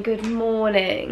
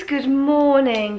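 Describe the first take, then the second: First: Said in the usual way. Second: High, slow, drawn-out greeting; sing-song good morning. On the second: Real, not acted. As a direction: stretch it out like a sung hello. Greeting repeated, first drawn out.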